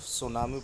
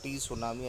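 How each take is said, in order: First: The word starts with an s sound. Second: The word starts with a t sound. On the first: The speaker calls it right. "इसको सिर्फ सुनामी पढ़ना है" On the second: The speaker calls it wrong. "ये गलत उच्चार है"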